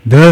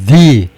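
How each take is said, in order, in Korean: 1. 모음은 짧고 약한 'uh' 소리입니다. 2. 모음은 길고 강한 'ee' 소리입니다. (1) "the가 아니고" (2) "자음 소리라도 the 그리고 세게 읽어야 돼요"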